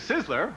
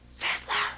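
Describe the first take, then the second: First: It is spoken aloud in a normal voice. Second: It is whispered in a hushed voice.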